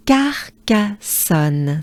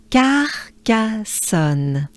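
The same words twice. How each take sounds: First: Carcassonne again, slow and even. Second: Carcassonne drawn out slowly, syllable by syllable. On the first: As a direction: repeat Carcassonne at a slow pace. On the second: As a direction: stretch out Carcassonne. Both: Shown as a demonstration.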